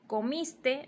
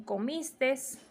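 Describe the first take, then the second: First: Said in the usual way. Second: Comistes, extra final S, slow. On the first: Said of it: "En vez de decir". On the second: Shown as a demonstration. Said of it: "dicen comistes".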